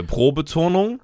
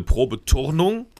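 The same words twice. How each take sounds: First: Said in the usual way. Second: Pro-Beturnung with oo-r replacing the o; turn in it. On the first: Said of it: "Haben wir ja gerade". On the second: Shown as a demonstration. Co-host explaining the pun on gymnastics, Pro-Beturnung with a clear turn. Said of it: "wenn man turnen geht".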